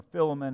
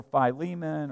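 First: Philemon said as FILL-uh-mun; alternative pronunciation. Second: Philemon said as fye-LEE-mun; first pronunciation. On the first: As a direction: say Philemon with short i, stress up front. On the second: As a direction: say Philemon with long i, stress on LEE. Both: Shown as a demonstration. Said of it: "however you want to pronounce it".

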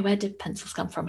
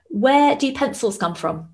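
First: Said in the usual way. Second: Put-on high, slow kid asking a riddle; playing her son telling a joke; child's voice. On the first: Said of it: "I said". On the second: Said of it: "He went".

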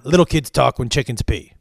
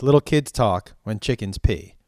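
First: Mock scolding. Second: Said in the usual way. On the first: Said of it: "his favorite thing to say was".

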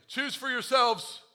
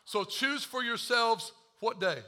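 First: Each word drawn out and weighted, "Choose for yourselves." stressed slowly; slow emphatic reading. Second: Said in the usual way. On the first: Shown as a demonstration. Pastor drilling the congregation on the verse, slow and emphatic. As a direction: repeat it slow and deliberate so it lands. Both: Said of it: "Try again".

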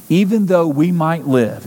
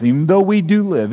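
First: "might" leaned on as a concession; stress on MIGHT. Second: "do" leaned on as a correction; stress on DO. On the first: Preacher conceding to his congregation, stress on "might". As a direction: lean on "might", conceding a possibility. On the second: Preacher correcting himself to his congregation, stress on "do". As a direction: hit "do" to affirm it. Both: Real, not acted.

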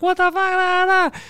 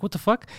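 First: Imitating her in a high squeal; mock freak-out. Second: Puzzled. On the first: Girlfriend opening the ring box, imitated freaking out. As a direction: squeal it way up high, trailing into nonsense syllables. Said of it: "she opened and started freaking out". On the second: Retold or imitated. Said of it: "then she opened and started freaking out".

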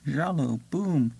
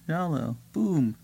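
The two takes are said the same way.

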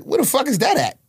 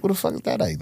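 First: High-pitched incredulous question; retold bafflement. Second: Said in the usual way. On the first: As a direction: voice leaping up in mock disbelief. Retells own ignorance of Indiana.

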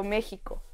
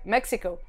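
First: México with a Spanish "j" for the x, quieter; answering where she's from, native Spanish México; Spanish-style México. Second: México with an English "ks" for the x; telling people abroad where she's from, English-style México. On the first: Say México the Spanish way, "Méjico". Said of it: "ya cuando me preguntaban". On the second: Say México the English way, "Méksico". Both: Retold or imitated.

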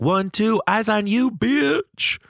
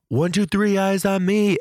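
First: High sassy yelled comeback; yelled reply. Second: Yelled passcode. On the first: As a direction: shout it back high and sassy. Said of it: "I'm gonna yell back". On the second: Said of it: "to yell". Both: Retold or imitated.

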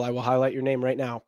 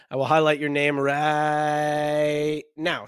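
First: Said in the usual way. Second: Slow, raspy stretched-out voice; raspy whisper. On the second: Pretend. Repeats line in put-on voice.

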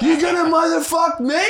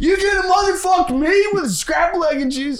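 First: High, loud laughing coach shout; yelling coach. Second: High, loud shouted coach rant; yelling coach. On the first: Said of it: "yelled at us". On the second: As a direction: scream it like a furious coach. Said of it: "that's it". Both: Retold or imitated.

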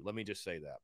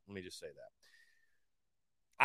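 First: Said in the usual way. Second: Drawn out, slow and low; slow emphatic repeat. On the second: Real, not acted. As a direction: say it slowly, dragging each word.

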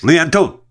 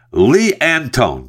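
First: "Lee Antone" said higher, leaning hard on "Antone"; retry "Antone" with a high, stressed, unsure lilt; puzzled name try. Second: Said in the usual way. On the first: Shown as a demonstration. Host retrying an unfamiliar foreign name, puzzled and stressed. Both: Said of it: "I don't even have any idea what accent".

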